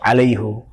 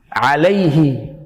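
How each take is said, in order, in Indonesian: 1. Kata ini diakhiri dengan vokal 'u'. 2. Kata ini diakhiri dengan vokal 'i'. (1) "bukan alaihu" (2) "kalau ada ya sukun, alaihi"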